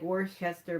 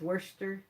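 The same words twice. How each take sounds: First: The name is pronounced the way it is spelled. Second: The name is pronounced in a shortened, reduced form. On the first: The speaker calls it wrong. "I know it's spelled like Worcester" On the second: The speaker calls it right. "but I think it's Worcester"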